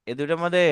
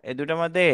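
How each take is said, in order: Both takes have the same delivery.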